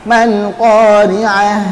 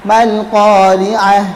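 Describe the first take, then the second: Both takes have the same delivery.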